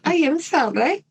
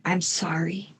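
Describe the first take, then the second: First: Put-on "I am sorry" in a light Italian accent, pitched higher; a playful Italian accent on "I am sorry". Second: Put-on hushed, much softer "I'm sorry", no accent; soft apology. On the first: Host redoes the killer's apology in an Italian accent. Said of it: "should I do that with an Italian accent?". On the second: Killer apologizing to her victim, softly. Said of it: "Or should I do that with an Italian accent?".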